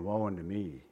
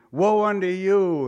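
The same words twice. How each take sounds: First: Humbled confession. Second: Louder and slow, pronouncing judgement; condemning woe. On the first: Someone who has seen the Lord, soft humbled confession. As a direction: lower and soft, owning the woe. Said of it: "Because you'd be saying". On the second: The self-righteous judging other people, loud slow condemnation. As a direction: point the finger and pronounce it. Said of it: "saying outwardly or secretly". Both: Retold or imitated.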